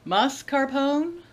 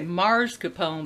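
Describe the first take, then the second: First: The first syllable has no R sound. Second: An R sound follows the first vowel. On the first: "Is that right?" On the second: "I always say mascarpone, but there's no R in it"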